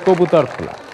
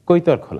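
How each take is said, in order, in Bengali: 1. এটি প্রমিত বাংলা রূপে বলা হয়েছে। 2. এটি আঞ্চলিক উপভাষার রূপে বলা হয়েছে। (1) "ওই ইউনিয়নের নাম হচ্ছে গিয়ে" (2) "আমার এলাকার লোক এবং আমরা সবাই বলি"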